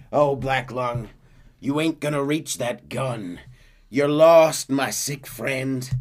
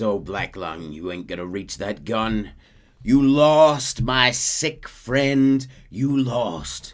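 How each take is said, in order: First: Slow, louder, higher sneer; gloating Micah. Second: Slow, louder sneer stretched out; gloating Micah again. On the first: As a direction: draw out the gloat. Micah gloating over crawling Arthur. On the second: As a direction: linger on lost. Micah's line repeated. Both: Retold or imitated.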